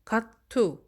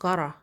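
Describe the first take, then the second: First: It is said as two separate full words. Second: It is reduced, with the t sounding like r.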